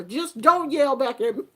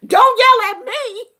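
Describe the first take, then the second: First: Said in the usual way. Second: Much higher and louder, a shouted demand; loud outburst. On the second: Pretend. Grandmother voicing the yell she means, high and loud. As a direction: let it burst out as a shout.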